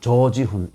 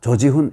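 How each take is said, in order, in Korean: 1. 첫 모음은 길게 발음해요. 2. 첫 모음은 짧게 발음해요. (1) "길게 조지훈, 조지훈 이렇게 읽어야 맞는 것이죠" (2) "이렇게 읽으면 또 안 되죠"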